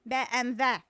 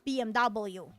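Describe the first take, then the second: First: The final letter is said like 'vee'. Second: The final letter is said like 'double-u'. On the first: "they call it B M W" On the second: "not B M W"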